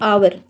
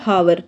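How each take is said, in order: First: The word begins directly with a vowel sound. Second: The word begins with a clear h sound. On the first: The speaker calls it right. "इसको बोलते हैं आवर" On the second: The speaker calls it wrong. "इसको ना कई student क्या बोलेंगे हावर, जो कि गलत हो जाएगा"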